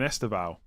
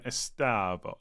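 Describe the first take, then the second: First: "Esteval" ending in an -ow glide; expected pronunciation. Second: "Estavo" drawn out as es-TAH-vo; really slow pronunciation. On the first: Shown as a demonstration. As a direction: say "Esteval" as Es-tuh-vow. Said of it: "it's not even saying Esteval". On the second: Retold or imitated. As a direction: imitate a slow "Estavo" with a long middle vowel. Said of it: "he's saying it really slow".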